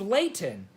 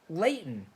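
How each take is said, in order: First: The middle T sound is clearly pronounced. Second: The middle T sound is dropped.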